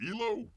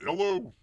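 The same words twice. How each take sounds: First: "Elo" with a long first vowel, questioning; first pronunciation of Elo. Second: "Elo" as ELL-oh, higher and louder; "Elo" rhyming with hello, as a question. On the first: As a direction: say "Elo" as EE-lo, tentatively. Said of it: "do you pronounce it". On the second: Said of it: "call it Elo, like hello". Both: Shown as a demonstration.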